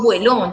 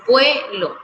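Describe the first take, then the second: First: "vuelo" wrongly stressed on the final "lo"; stress on last syllable. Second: "vuelo" said as VUE-lo, accent up front; stress on first syllable. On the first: Teacher showing the class the wrong way, "vuelo" stressed on its last syllable. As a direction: say "vuelo" as vueLÓ, accent on the end. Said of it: "Yo no digo vuelo". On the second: Teacher correcting the stress for the class, "vuelo" stressed on its first syllable. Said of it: "yo digo vuelo". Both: Shown as a demonstration.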